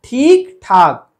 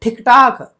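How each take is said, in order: First: Slow ठीक ठाक, stretched ee, both ठ aspirated; loud, deliberate "theek thaak" for ठीक ठाक; correct long ee. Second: ठीक ठाक said as "thik-taak"; raised, quick short-i ठीक ठाक; wrong short i. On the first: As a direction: hold ठीक long, then puff ठाक. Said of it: "ये सही होगा". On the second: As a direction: cut the vowel of ठीक short. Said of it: "ठीक ठाक गलत है". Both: Shown as a demonstration.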